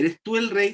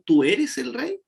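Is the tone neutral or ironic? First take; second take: neutral; ironic. First: It is asked as a plain, formal question. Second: It is asked in a mocking, ironic tone.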